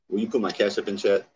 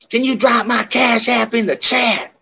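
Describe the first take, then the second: First: It is said in the speaker's normal voice. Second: It is said in a put-on Bombshell voice.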